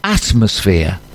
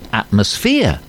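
First: The stress falls on the first syllable. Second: The stress falls on a later syllable. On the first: The speaker calls it right. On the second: The speaker calls it wrong.

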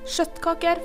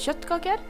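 First: The word begins with a sharper sh-like sound. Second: The word begins with a softer kj sound. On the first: Many young people now say it this way. "bytter ut KJ med SKJ-lyden" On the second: This is the older, traditional way. "bytter ut KJ med SKJ-lyden"

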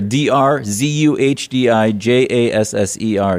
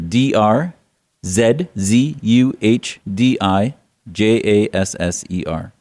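First: The letters are said fast. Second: The letters are said slowly.

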